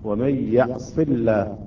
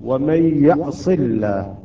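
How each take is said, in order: First: The L in the last word sounds thin. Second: The L in the last word sounds thin.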